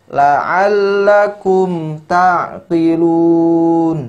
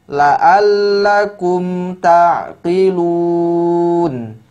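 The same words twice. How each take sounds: Both takes have the same delivery.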